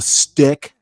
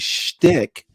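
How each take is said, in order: First: The word begins with a plain s sound. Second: The word begins with a sh sound. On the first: The speaker calls it wrong. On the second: The speaker calls it right.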